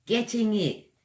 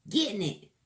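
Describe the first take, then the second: First: Getting it in crisp proper British, hard t; proper British accent. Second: Getting it in casual slangy British; slangy British accent. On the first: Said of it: "one in a proper British accent". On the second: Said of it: "one in a slangy British accent". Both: Shown as a demonstration.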